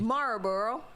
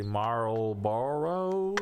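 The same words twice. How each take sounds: First: Marlboro with her northern vowels. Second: Marlboro said slowly, every syllable spelled out; slow careful Marlboro. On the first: Real, not acted. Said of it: "my northern accent". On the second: Shown as a demonstration. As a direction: stretch out "Marlboro" evenly and clearly. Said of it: "say it without my northern accent".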